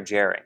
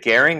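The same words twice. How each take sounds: First: "gerund" with a soft g, like a j. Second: "gerund" with a hard g, as in "get". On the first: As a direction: say "gerund" starting like "jerry". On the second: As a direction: say "gerund" starting on a g as in "go". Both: Shown as a demonstration. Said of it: "is it gerund or gerund?".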